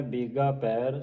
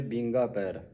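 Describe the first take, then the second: First: ਬੀਗਾ ਪੈਰ with a pure, un-nasalized "ee"; ਬੀਗਾ without bindi. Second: ਬੀਂਗਾ ਪੈਰ with nasal "een"; nasalized ਬੀਂਗਾ. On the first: Shown as a demonstration. Teacher correcting the misreading, ਬੀਗਾ without nasal vowel. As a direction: keep nasal sound out of ਬੀਗਾ. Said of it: "ਉਚਾਰਨ ਹੈ ਬੀਗਾ ਪੈਰ". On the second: Retold or imitated. Teacher imitating some congregations' misreading, ਬੀਂਗਾ with nasal vowel. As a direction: add a bindi's nasal sound to ਬੀਂਗਾ. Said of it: "ਬਿੰਦੀ ਲਾ ਕੇ ਉਚਾਰਨ ਕਰਦੀਆਂ".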